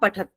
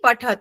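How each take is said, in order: First: The word ends on a bare final consonant. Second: The word ends with a short final vowel. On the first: The speaker calls it wrong. "तत्र वयं किं कुर्मः, पठत् तत् कुर्मः" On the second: The speaker calls it right. "तदस्ति पठत"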